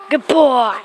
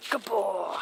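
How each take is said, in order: First: Loud praise. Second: Soft praise. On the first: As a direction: call out praise to the cat. Praising cat while carrying it. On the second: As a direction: murmur praise to the cat. Praising cat softly. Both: Real, not acted.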